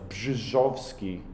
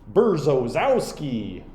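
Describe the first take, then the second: First: The name starts with a 'bzh' sound. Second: The name starts with a 'ber' sound. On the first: The speaker calls it right. "R Z, as I understand it, sounds like S H in English. So it's like Brzezowski" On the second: The speaker calls it wrong. "it said Berzozowski, which is not how you say it"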